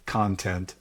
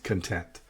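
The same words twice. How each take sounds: First: First "content" stressed as CON-tent; stress on first syllable. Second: Second "content" stressed as con-TENT; stress on second syllable. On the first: Teacher recapping the word that came up, "content" stressed on the first syllable. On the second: Teacher recapping the word that came up, "content" stressed on the second syllable. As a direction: lean on TENT in "content", light first syllable. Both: Shown as a demonstration. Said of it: "different when we put different emphasis".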